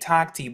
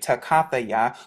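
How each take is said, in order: First: The word is short, with two syllables. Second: The word is longer, with four syllables. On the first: The speaker calls it wrong. "They say takti" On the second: This is the restored pronunciation. The speaker calls it right. "in the restored pronunciation, it's actually takathaya"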